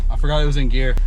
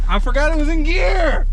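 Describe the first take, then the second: First: Said in the usual way. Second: High, loud panicked yell; shouting. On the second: Real, not acted. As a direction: yell it out in alarm. Realizes mistake, repeats shouting.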